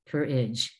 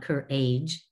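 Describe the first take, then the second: First: The last syllable is a reduced 'idge' sound. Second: The last syllable keeps a full 'age' vowel. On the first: The speaker calls it right. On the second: The speaker calls it wrong. "not courage"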